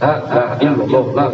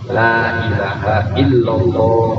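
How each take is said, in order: First: The phrase is said quickly and slurred together. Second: The phrase is said slowly and carefully. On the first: The speaker calls it wrong. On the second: The speaker calls it right.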